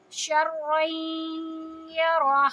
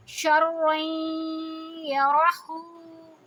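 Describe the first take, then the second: First: شرعیں یرہ ending on a breathy ہ, no vowel; Quran recitation, pausing. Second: شرعیں یرہو slow with the final ہو voiced; Quran recitation, flowing. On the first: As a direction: stop on یرہ with a silent final vowel. (وقف کے ساتھ یرہ پر جزم) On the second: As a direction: chant through یرہو without stopping. (بغیر وقف کے یرہو پڑھیں) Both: Shown as a demonstration. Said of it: "جب وقف کریں گے تو ہم اس پہ جزم".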